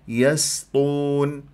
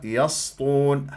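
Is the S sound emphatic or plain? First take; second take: plain; emphatic. First: The S sound is light and plain. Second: The S sound is heavy and emphatic. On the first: The speaker calls it right. "ركز" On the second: The speaker calls it wrong. "تسويها يسطون صارت صاد"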